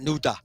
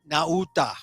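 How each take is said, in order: First: The name is said fast with vowels squeezed together. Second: Every vowel in the name is fully pronounced. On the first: "you say it fast in an anglicized way" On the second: "I like to give him all his vowels"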